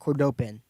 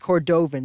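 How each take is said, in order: First: The middle consonant is a P sound. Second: The middle consonant is a V sound. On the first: The speaker calls it wrong. "not Cordopin" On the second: The speaker calls it right. "but it's Cordovan"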